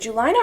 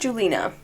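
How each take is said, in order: First: The i is said like eye. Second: The i is said like ee. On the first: "pronounced I" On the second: "or E"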